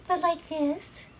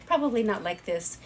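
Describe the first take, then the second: First: Put-on higher, slower, cutesy girl voice; "but like this" said high, slow and sweet; cute girly voice. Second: Said in the usual way. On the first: Shown as a demonstration.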